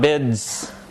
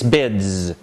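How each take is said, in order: First: The word ends in a voiceless s sound. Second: The word ends in a voiced z sound. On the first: The speaker calls it wrong. "bids with an S, a voiceless alveolar fricative" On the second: The speaker calls it right. "It's bids with a Z"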